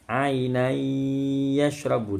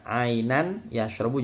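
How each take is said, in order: First: The n merges into a nasalized y sound. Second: The n is pronounced separately before the y.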